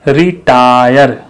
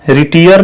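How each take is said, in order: First: The second syllable has an ai vowel. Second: The second syllable has an ee vowel. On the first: The speaker calls it right. "टा" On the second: The speaker calls it wrong. "रिटियर नहीं"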